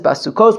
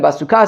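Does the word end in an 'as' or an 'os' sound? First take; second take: os; as. First: The word ends with an 'os' sound. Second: The word ends with an 'as' sound. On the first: The word is read as plural, following the traditional reading. "we read it in all three instances basukos" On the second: The word is read as singular, following the written form. "to how it's written"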